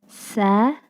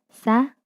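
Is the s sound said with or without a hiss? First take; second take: with hiss; without hiss. First: The s sound is said with a hiss. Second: The s sound is said without a hiss. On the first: The speaker calls it right. "pastikan ada suara desisan yang menyertai" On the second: The speaker calls it wrong. "Kita tidak mengucapkan dengan sa"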